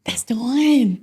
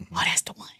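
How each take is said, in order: First: Higher, drawn-out certainty; voiced realization. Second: Very soft awed whisper; hushed realization. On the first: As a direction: say it aloud, pitch lifting as you're convinced. Repeats the realization out loud. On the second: Retold or imitated. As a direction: whisper it to yourself as it clicks. Retelling the moment the name came.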